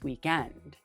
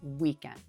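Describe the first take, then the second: First: The stress is on the second syllable. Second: The stress is on the first syllable. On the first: "it's hard for me to say it differently" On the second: "The first syllable is stressed"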